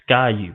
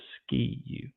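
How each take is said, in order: First: The first word is said with an 'eye' vowel. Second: The first word is said with an 'ee' vowel. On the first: The speaker calls it right. "It is the Sky U podcast" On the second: The speaker calls it wrong. "not the Ski U"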